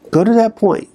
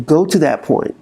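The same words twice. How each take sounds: First: Plain. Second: Said in the usual way. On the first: Shown as a demonstration.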